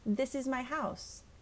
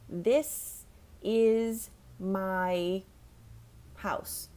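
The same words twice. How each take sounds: First: The words flow together smoothly and naturally. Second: Each word is said separately, like a robot. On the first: The speaker calls it right. "practice it in a sentence" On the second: The speaker calls it wrong. "that sounds like a robot"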